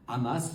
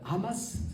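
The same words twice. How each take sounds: First: The word is pronounced with French sounds. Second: The word is pronounced with Arabic sounds. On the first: "c'est à la française" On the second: "c'est la prononciation arabe"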